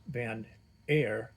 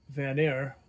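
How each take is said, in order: First: "Van" then "Air" said slowly and apart; spaced pronunciation. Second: Said in the usual way. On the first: Shown as a demonstration. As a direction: pronounce "Van ... Air" as two slow words.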